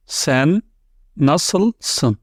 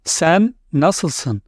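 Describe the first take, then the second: First: "Sen" then "nasılsın?" said apart, word by word; slow split model pronunciation. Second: Said in the usual way. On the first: Shown as a demonstration. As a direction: break "Sen nasılsın?" into two careful words. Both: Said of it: "I will give you some examples".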